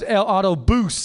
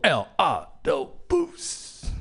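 First: Only the last syllable is stressed. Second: Every syllable is stressed.

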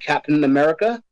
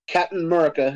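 First: America is pronounced in full, every syllable. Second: America is clipped, its first syllable dropped. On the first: This is the official title. "It's called Captain America" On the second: This is how the speaker personally says it. "as I would actually pronounce it"

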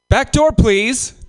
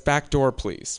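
First: It is said in a put-on Asian accent. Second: It is said in his normal voice.

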